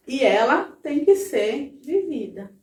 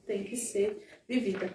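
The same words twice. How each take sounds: First: Slow, weighted push on "tem que ser vivida"; emphatic stress. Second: Said in the usual way. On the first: Shown as a demonstration. ("tem que ser vivida" dito devagar, com ênfase no "que")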